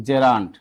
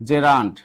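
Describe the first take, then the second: The two takes are said the same way.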